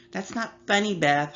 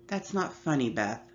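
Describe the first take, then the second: First: Higher, teasing echo of mom's words; mocking little sister. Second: Said in the usual way. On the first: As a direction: mimic mom in a high, cheeky way. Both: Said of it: "Holly laughed".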